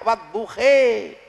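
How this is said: The word ends with an e vowel.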